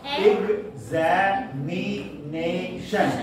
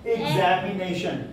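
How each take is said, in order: First: examination stretched out slowly, each of its five syllables drawn apart; teacher spells out examination slowly to count the syllables. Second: Said in the usual way. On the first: Shown as a demonstration. Teacher to students, stretching examination slowly syllable by syllable. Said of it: "It has five syllables".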